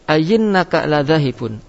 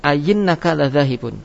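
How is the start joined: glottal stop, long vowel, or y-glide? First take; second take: y-glide; y-glide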